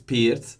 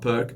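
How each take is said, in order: First: The word ends with a ts sound. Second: The word ends without a ts sound. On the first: The speaker calls it right. "the C is like a, a and T Z" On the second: The speaker calls it wrong. "it's not perk"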